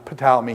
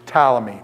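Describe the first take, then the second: First: The initial P is pronounced. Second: The initial P is pronounced.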